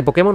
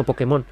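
First: "Pokémon" stressed on the middle syllable, po-KÉ-mon. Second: "Pokémon" stressed at the end, po-ke-MON; stress on last syllable. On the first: Weighing how Japanese say it, "Pokémon" as po-KÉ-mon. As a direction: lean on the KÉ in "Pokémon". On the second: Offering the alternative, "Pokémon" as po-ke-MON. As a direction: push the accent onto the final MON in "Pokémon". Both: Shown as a demonstration. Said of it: "habría que ver cómo dice un japonés".

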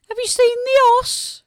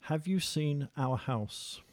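First: High, loud Black Country call; broad Black Country accent. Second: Slow, careful Oxford English translation; best Oxford English. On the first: Musician gives a line for translation, broad Black Country accent. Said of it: "with me doing the translation". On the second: Interviewer translating dialect for listeners, in best Oxford English voice. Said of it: "best Oxford, English voice". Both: Shown as a demonstration.

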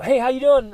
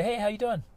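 First: Much higher, louder, cheerful hello; confident greeting. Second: Higher but soft, hesitant hello; scared to speak to a stranger; timid greeting. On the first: Him greeting people once it felt easy, bright and confident. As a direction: greet everyone with ease now. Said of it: "And I'd say". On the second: Him forcing himself to greet a stranger, timid. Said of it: "just say". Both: Retold or imitated.

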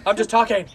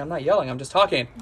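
First: Louder, higher, imitated protest; yelled denial. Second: Mildly defensive retort, imitated; insisting not yelling. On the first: Wife insists she's only talking, mock yelling. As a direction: yell that you're not yelling, half laughing. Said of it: "you're yelling". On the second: Wife denies she is yelling, mildly defensive. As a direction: insist you're only talking, slightly raised. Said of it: "I don't wanna be yelling right now".

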